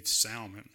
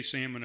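First: Salmon with a sounded L, SAL-mun; salmon as in "Sal" plus "mun"; Jenna's pronunciation. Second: Salmon with silent L, SAM-un; Alaskan pronunciation. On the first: Retold or imitated. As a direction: say salmon with an audible L. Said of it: "that's the way that Jenna said the word". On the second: Shown as a demonstration. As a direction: say salmon without any L. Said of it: "They say salmon up there".

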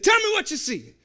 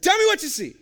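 First: A commanding demand in a bad Jamaican accent. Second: Loud, with an attempt at a Jamaican accent; a commanding order in a bad Jamaican accent. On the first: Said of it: "No, it's terrible". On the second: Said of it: "my Jamaican accent's terrible".

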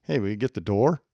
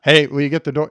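First: Falling, firm order with a question's words; demand not question. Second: Loud, flat demand posed as a question; demanding ask. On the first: Demanding Mike open the door, firm. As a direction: make the question sound like an order. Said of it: "it really doesn't sound like a question". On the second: Asking Mike again, now demanding. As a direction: stake out your territory and ask. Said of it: "Notice when I asked the second time". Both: Shown as a demonstration.

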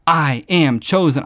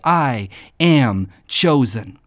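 First: Said in the usual way. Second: "I am chosen" slow, stressing am; slow firm declaration. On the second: Shown as a demonstration. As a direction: say it deliberately slowly. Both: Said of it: "Write these words".

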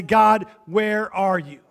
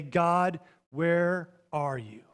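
First: Slow, drawn-out question to God; honest plea. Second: Soft, very slow question to God; simple prayer. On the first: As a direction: ask God plainly, stretching each word. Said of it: "honest with God and say". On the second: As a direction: ask God softly, word by word, with space between. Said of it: "And we simply say". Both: Acted.

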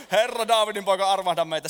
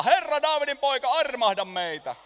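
First: Louder, insistent plea; crying out louder. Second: High, loud plea; crying out. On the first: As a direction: shout it again, harder. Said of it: "he huusivat vielä kovemmin". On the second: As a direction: call out to Jesus for mercy. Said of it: "he alkoivat huutaa". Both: Acted.

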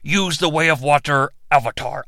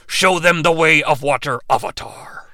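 First: Dragon god command. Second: Lower, hushed god command; approved dragon command. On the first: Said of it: "I said". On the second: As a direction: end in a whispered Avatar. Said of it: "I checked with the legal department". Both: Pretend.

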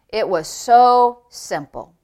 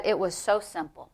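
First: Slow, weighty stress on "so"; drawn-out emphasis. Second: Said in the usual way. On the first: Retold or imitated. Preacher repeats Brother Norvel's words to the congregation, slowly emphatic. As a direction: stretch out "so", then let "simple" fall.

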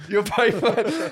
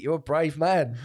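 First: Slow, louder, higher teasing drawl with a laugh; mocking taunt. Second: Said in the usual way. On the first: Taunting the snooty BBC presenter, slow mocking drawl. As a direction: needle him, stretch it out. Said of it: "started to get in his head". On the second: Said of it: "and I went".

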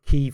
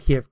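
First: Kyiv as one syllable, KEEV; newer pronunciation. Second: Kiev in two syllables, KEE-ev; older pronunciation. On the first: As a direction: say Kyiv run together as KEEV. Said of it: "Isn't it like a Kiev". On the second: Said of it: "Kyiv thing". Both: Shown as a demonstration.

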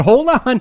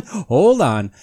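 First: "hold on" said high and louder. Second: Said in the usual way. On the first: Real, not acted. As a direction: call out "hold on" loudly. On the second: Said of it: "But hold on".

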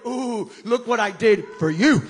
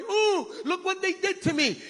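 First: Loud, proud announcement; triumphant Jesus. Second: Higher, whiny mock complaint; mock whining victim. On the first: Pretend. Preacher voicing Jesus to disciples, loud triumph. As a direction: proclaim the victory boldly. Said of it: "He went in there going". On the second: Preacher mocking a whining Jesus, high whine. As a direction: whimper like a self-pitying victim. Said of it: "Jesus did not go in there going".

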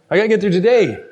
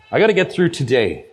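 First: Lightly voiced pastor, matter-of-fact; imitating Pastor Mike. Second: Said in the usual way. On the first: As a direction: echo the pastor's easygoing line in his voice. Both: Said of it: "That's your pastor".

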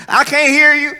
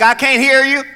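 First: High, loud, rude shout from the pews; rude loud heckle. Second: High, loud call from the back pew; loud heckling elder. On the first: Rude church elder heckling the reciting child, loud shout. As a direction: bark it rudely at the kid. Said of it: "Oh, they were so rude". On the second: Older church member heckling the child, loud call. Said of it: "some older person be like". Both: Retold or imitated.

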